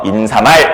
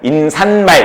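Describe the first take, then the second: First: No extra sound is added before mal. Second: An extra n sound is added before mal. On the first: The speaker calls it right. "인사말 이렇게 발음을 해줘야 됩니다" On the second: The speaker calls it wrong. "인산말 이렇게 발음하면 안 돼요"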